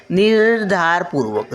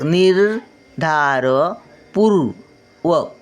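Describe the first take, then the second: First: Said in the usual way. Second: निर्धारपूर्वक very slowly, syllable by syllable; slow syllable reading. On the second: Shown as a demonstration. Grandmother sounding out निर्धारपूर्वक for children, very slowly. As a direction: sound out निर्धारपूर्वक at half speed. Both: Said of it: "word then slow repeat".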